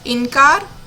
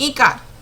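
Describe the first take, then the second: First: A nasal n sound follows the first vowel. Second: No nasal sound follows the first vowel. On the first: The speaker calls it right. "इनकार सही है" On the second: The speaker calls it wrong. "इकार शब्द है बच्चों"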